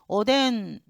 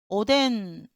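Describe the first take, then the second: No difference in how they are said.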